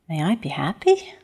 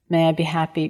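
First: It is said with a doubtful, questioning tone. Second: It is said plainly and sincerely.

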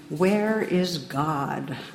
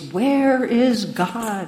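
First: It is said sternly at moderate volume. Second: It is said sternest at the highest volume.

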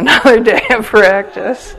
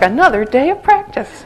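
First: It sounds weary and reluctant. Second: It sounds bright and chirpy.

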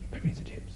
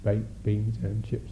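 First: The phrase is said quickly with eager energy. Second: The phrase is said calmly at an even pace. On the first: Desire has taken hold of the thought. "it starts to speed up. It's caught you" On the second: It is just a neutral thought. "just phrase like that"

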